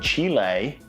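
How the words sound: The name is said with an American pronunciation. This is how Americans say it. "as the Americans would say"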